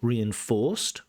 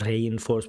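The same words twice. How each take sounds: First: The stress is on the last syllable. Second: The stress is on the first syllable. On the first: The speaker calls it right. "the main stress is on o" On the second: The speaker calls it wrong. "so not reinforced, ... the stress is not on re"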